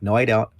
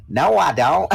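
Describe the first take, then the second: First: Said in the usual way. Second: High, loud mock Texan twang; Texas accent. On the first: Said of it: "I mean". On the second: Kid denying to mom the Texas sound, in Texas accent. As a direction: do the kid's exaggerated Texas accent. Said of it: "sound like you're from Texas".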